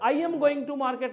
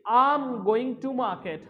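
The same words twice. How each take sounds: First: The words I and am are said separately. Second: The words I and am are merged together. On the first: The speaker calls it wrong. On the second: The speaker calls it right.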